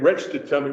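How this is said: The word reached has a regional, retched-like pronunciation. This is how the people actually spoke. "which is how they really said it"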